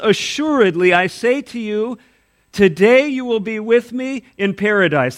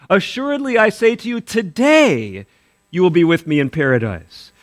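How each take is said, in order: First: The pause comes before the word today. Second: The pause comes after the word today.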